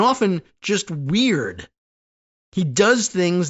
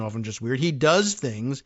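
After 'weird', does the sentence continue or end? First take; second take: end; continue. First: The sentence ends after 'weird', then restarts. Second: The sentence carries on through 'weird' without ending. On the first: Two separate statements. The speaker calls it wrong. "I read that as though that sentence ended and broke into two" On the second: The weird instincts cause the damage. The speaker calls it right. "just another phrase in the same sentence"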